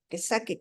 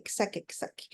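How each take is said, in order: First: Said in the usual way. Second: Whispering to let grief out; whispered. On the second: Shown as a demonstration. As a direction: fade the repeat into a whisper. Repeating "let them get it out.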